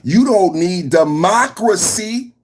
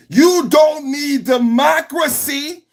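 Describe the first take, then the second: First: Said in the usual way. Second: High, slow sneering mock; mocking voice, higher and slow; mocking high drawn-out taunt. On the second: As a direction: stretch it out like a mocking official.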